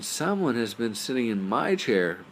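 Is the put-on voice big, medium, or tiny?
medium. It is said in a medium-sized voice. "said in her medium-sized voice"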